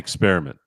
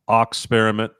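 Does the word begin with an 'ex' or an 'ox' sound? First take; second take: ex; ox. First: The word begins with an 'ex' sound. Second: The word begins with an 'ox' sound. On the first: "I I just say experiment" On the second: "you can uh, pronounce it Oxperiment"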